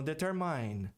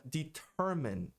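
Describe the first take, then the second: First: "determine" ending rhymed with "mine", the common mistake; teacher shows the wrong "determine"; wrong Brazilian-style. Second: "determine" said slowly, "deter-MINE" with a long I like eye; teacher models "determine" slowly; correct English. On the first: Teacher imitating students' wrong "determine" as a warning. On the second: Teacher demonstrating correct "determine" slowly to students. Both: Shown as a demonstration. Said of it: "e não determine".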